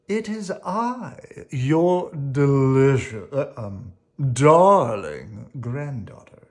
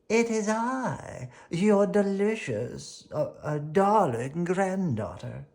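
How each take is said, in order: First: It is said in an ordinary speaking voice. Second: It is said in a high-pitched put-on voice. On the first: The speaker calls it wrong. "Oh, whoops" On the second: The speaker calls it right. "said the wolf in a high-pitched voice"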